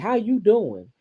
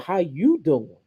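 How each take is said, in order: First: It is said as a plain, neutral greeting. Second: It is said in a flirtatious, suggestive tone.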